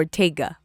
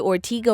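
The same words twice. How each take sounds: First: Ortega with an AY in the middle, or-TAY-ga; alternate pronunciation. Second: Ortega with a long EE in the middle, or-TEE-ga; alternate pronunciation. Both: Shown as a demonstration. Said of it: "Is it Ortega or Ortega".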